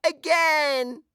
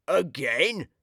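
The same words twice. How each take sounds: First: Put-on very high, squealing baby delight; a toddler shrieking for more. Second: Said in the usual way. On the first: A narrator's reading. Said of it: "The baby laughs and shouts". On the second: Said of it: "says Burglar Bill".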